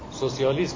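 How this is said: It is said with a French-style 'so-si-a-lism'. This is how Persian speakers actually say it. "با لهجه فرانسوی با تلفظ فرانسوی"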